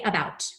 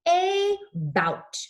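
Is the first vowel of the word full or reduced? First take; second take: reduced; full. First: The first vowel is quick and reduced. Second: The first vowel is full and drawn out. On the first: "We say it very casually" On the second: "It's the exaggerated A"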